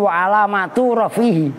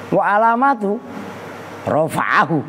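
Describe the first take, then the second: First: The phrase flows smoothly without breaks. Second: The phrase is chopped up with breaks. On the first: The speaker calls it right. "itu kalau bacanya begitu" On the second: The speaker calls it wrong. "baca diputus-putus"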